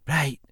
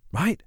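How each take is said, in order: First: Falling tone of agreement; acknowledging. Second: High, rising check for agreement; questioning. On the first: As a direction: confirm it with a falling note. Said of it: "she acknowledged". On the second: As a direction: end on a raised questioning note. Seeks agreement from the listener. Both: A narrator's reading.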